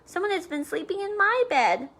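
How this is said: It is said in a middle-sized voice.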